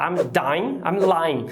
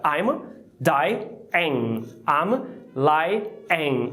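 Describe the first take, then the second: First: "I'm dying, I'm lying" with dying and lying each crushed into one syllable; squashed into one syllable. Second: "I'm dying, I'm lying" with dy-ing and ly-ing split into two syllables; two clear syllables. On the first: Teacher imitating students squeezing the words into one syllable. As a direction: mimic the learner's clipped one-syllable version. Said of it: "a gente quer falar uma sílaba só". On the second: Teacher modelling the correct two syllables for students. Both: Shown as a demonstration.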